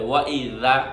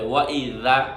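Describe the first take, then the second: First: The middle consonant is a soft 'th' sound. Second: The middle consonant is a soft 'th' sound.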